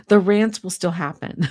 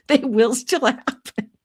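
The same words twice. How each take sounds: First: Said in the usual way. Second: Higher, slower sing-song warning; chirpy mock-threat to the chat; playful teasing promise. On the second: Real, not acted. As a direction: tease the viewers that the rants will come back.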